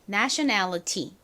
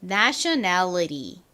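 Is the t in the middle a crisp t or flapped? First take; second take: crisp; flapped. First: The middle t is a crisp t sound. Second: The middle t is flapped like a light r. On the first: "nationality 이라고 발음될 수도 있지만" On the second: "nationality 이렇게 리처럼 발음이 날 수도 있습니다"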